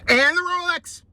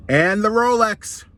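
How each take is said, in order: First: Much higher squeaky robber voice; squeaky repeated demand. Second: Slow, loud, higher robber voice; menacing demand. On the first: Squirrel repeats the demand, high and squeaky. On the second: Squirrel demands the rabbit's Rolex, slow and menacing. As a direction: lean on it like a stick-up man. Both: Acted.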